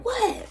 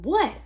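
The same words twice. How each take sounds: First: A sharp, very high yelled what; shrill yelled what. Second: Retold holler. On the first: Shown as a demonstration. Answering the lawn guy across the street, a high sharp yell. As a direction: fire the word What? back across the street, pitched way up. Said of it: "I yell back at him ... like that". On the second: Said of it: "So I holler back at him".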